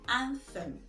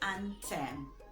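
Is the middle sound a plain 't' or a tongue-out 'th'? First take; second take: th; t. First: The middle has a tongue-out th sound. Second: The middle has a plain t sound. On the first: The speaker calls it right. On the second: The speaker calls it wrong.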